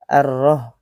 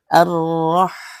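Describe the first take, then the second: First: The final h sound is dropped and not heard. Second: The final h sound is clearly breathed out. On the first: The speaker calls it wrong. "Ar-roh artinya H pedasnya tidak kelihatan dan tidak dimunculkan" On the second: The speaker calls it right. "ada H pedas di sana"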